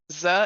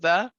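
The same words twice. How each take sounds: First: It starts with a z sound, German-accented. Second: It starts with a th sound, plain accent.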